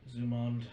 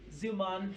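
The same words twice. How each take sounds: First: First of two twins. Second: Loud, much higher twin voice; second of two twins. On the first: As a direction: call the name loudly, without raising pitch much. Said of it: "you hear one of them go". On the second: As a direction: echo the name way up high. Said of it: "and the other one go". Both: Acted.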